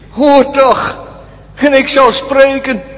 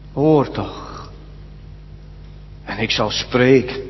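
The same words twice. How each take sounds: First: It is read in a conceited, haughty tone. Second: It is read in a humble, not haughty tone. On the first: The speaker disagrees and demands an explanation. The speaker calls it wrong. "Daarin hoor je eigenlijk een verwaande houding" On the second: The speaker humbly asks to be taught. The speaker calls it right. "Het is meer deze toon die hij aanslaat"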